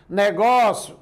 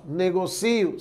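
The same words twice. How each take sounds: First: Negócio, stressed on an open GÓ. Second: Negocio, stressed on CI. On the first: Teacher showing shifted stress changes meaning, stress on GÓ. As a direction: punch ne-GÓ-cio in the middle. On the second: Teacher showing shifted stress changes meaning, stress on CI. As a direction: lean on the i, nego-CI-o. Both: Shown as a demonstration. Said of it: "Se eu deslocar a sílaba tônica".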